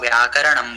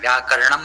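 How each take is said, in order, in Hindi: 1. 'r' को उसके स्वर के साथ पूरा बोला जाता है। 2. 'r' को छोटा करके सीधे 'n' में मिला दिया जाता है। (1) "तो शिक्षा कल्पो व्याकरणम बोलना है" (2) "व्याकरणम नहीं बोलना है"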